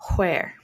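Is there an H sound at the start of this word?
yes. The word starts with a breathy H sound. "pronounced with the H sound"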